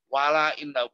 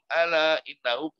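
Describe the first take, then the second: First: The first word begins with a w sound. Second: The first word begins with a glottal stop. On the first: The hamzah is replaced as if joined to the previous word. The speaker calls it wrong. "itu nggak boleh wala innahum" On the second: Reading starts fresh from this word. The speaker calls it right. "kalau mana subaha mulai dari ala innahum"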